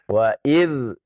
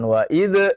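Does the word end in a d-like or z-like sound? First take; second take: z-like; d-like. First: It ends in a soft z-like sound. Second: It ends in a bouncing d sound. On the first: The speaker calls it right. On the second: The speaker calls it wrong. "jangan wa id. Kalau wa id itu qalqalah"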